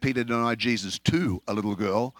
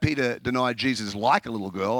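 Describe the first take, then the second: First: "to" punched as the corrected word; emphasis falls on "to"; stress on to. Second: "like" picked out as the disputed word; emphasis falls on "like"; stress on like. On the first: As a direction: lean on "to", lifting it to correct the listener. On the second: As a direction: lean on "like" to show the misheard version. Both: Retold or imitated. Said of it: "she changed to, to like".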